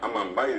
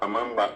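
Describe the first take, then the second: First: The word ends with an added 'ai' sound. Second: The word ends with a plain 'a' sound. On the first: This is how people commonly say it today. The speaker calls it wrong. "amambay decimos" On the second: This is the original Guarani form. The speaker calls it right. "la forma correcta"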